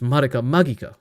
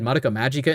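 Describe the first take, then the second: First: The name is said with Japanese-style sounds. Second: The name is said with English-style sounds. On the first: The speaker calls it right. "It's Madoka Magica" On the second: The speaker calls it wrong. "they said Madoka Magica in the video"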